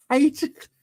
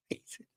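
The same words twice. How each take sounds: First: Hated jumps way up high; squeaky high repeat. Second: Breathless giggled whisper of the word; laughing whisper. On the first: Telling viewers how he hated the film, high squeak. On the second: Hating the film so much he laughs. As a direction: laugh it out under your breath. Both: Real, not acted.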